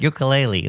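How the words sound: It is said the mainland American way. The speaker calls it wrong. "That's the way we say it"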